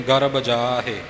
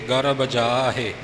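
No difference in how they are said.

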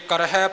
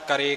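First: The word ends with an 'h' and 'i'. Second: The word ends with a plain 'e' vowel. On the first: The speaker calls it right. "ਜੇ ਕਰਹਿ ਪਾਠ ਹੈ" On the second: The speaker calls it wrong. "ਹਾਹੇ ਅੱਖਰ ਦਾ ਉਚਾਰਨ ਬੜਾ ਹੀ ਘੱਟ ਕਰਦੇ"

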